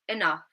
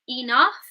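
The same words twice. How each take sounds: First: The first vowel is a weak schwa. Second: The first vowel is a full, clear vowel. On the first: The speaker calls it right. "we might say enough" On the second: The speaker calls it wrong. "instead of saying enough"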